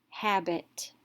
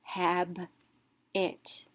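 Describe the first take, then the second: First: "habit" run together as one word; whole word blended. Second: "Hab, it" with a clear pause between syllables. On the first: Teacher reading the whole word, syllables blended. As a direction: join both syllables into "habit". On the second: Teacher reading the whole word, split by syllables. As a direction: read "Hab, it" as two separate beats. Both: Shown as a demonstration. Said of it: "let's read the whole word".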